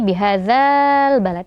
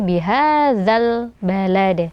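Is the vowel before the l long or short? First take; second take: long; short. First: The vowel before the l is lengthened. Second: The vowel before the l is kept short. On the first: The speaker calls it wrong. "Bukan lagi" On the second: The speaker calls it right. "mad tabi'inya dihilangkan"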